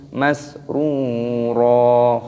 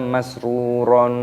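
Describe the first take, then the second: First: The word ends on a long vowel. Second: The word ends with an n sound. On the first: The speaker calls it right. "dibaca ro panjang mata iwad" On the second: The speaker calls it wrong. "tidak boleh dibaca masruron"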